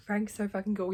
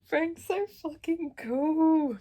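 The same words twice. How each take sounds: First: Said in the usual way. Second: High, loud, slowly stretched gush; swooning over a favourite character; loud, slow fangirl gush. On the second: Real, not acted. Gushing about Frank.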